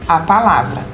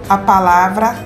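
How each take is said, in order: The two takes are said the same way.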